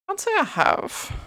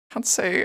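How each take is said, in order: First: Much higher, slow, mock-prim reply; silly high answer. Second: Said in the usual way. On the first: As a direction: answer drawn out in a high put-on voice. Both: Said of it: "Have you ever tried".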